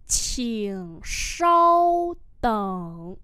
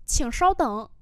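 First: Very drawn-out, held tones; syllable-by-syllable repeat; slow model pronunciation. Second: Said in the usual way. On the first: Shown as a demonstration. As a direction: stretch each syllable for learners. Teacher repeats phrase slowly.

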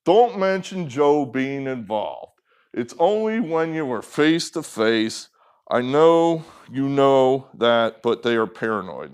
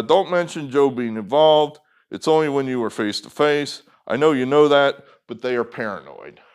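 First: Mock a kid's plodding reading; like a six-year-old. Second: Said in the usual way. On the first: Shown as a demonstration. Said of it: "not like a six-year-old". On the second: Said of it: "Let me read that again".

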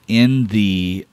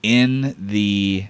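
No difference in how they are said.

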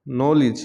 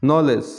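First: নলেজ ending in "-lij"; correct pronunciation. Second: নলেজ ending in "-lej"; common mispronunciation. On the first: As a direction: say নলেজ as "NOL-ij". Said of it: "ও সঠিক উচ্চারণ". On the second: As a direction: say নলেজ as "no-lez". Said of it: "common কিছু শব্দের". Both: Shown as a demonstration.

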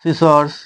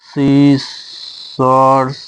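First: Said in the usual way. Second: "সিসর্স" stretched very long in two parts; "সিসর্স" very slow, split in the middle; sounded out slowly. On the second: Shown as a demonstration. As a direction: draw out each syllable of "সিসর্স". Sounds out word while writing it.

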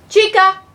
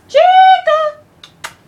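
First: A firm call to the dog. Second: High, loud, drawn-out call of the dog's name. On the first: Calling the dog over, a firm call. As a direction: call the dog's name across the room. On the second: The dog doesn't come, so a long loud call. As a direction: yell for the dog from far off. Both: Real, not acted.

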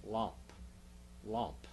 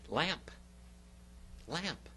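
First: "Lamp" with an open "ah", like "lahmp"; Greek-style vowel. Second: Said in the usual way. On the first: Shown as a demonstration. Teacher hinting at the English word from lamproteta, Greek-style "Lamp" as "lahmp". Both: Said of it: "what English word comes from lamproteta".

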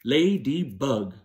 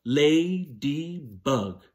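First: "Ladybug" slow, three beats, a little quicker; slow syllables. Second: "Ladybug" stretched into three slow beats, lady-bug clapped; very slow syllables. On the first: Teacher repeating "Ladybug" on fingers, slow. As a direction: count "Ladybug" on fingers, slowly. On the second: Teacher leading the class to clap "Ladybug", very slow. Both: Shown as a demonstration. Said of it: "clap the syllables in ladybug".

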